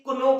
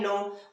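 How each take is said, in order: First: The k sound is pronounced before the n. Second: The k sound is silent before the n. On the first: The speaker calls it wrong. "बहुत सारे लोग आपने देखा होगा guys इसे कुनो पढ़ते हैं" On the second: The speaker calls it right. "के साइलेंट"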